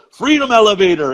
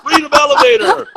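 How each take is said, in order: First: A lightly voiced pleased quip, a bit higher and louder; lightly imitating a friend's proud joke; Jimmy's quip. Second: Much higher, louder, put-on voice of an old man repeating the joke; hammed-up high old-guy impression; older guy's echo. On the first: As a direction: toss it off as a cheerful one-liner. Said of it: "and Jimmy goes". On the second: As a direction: squeak it back like a delighted old man. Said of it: "he's an older guy".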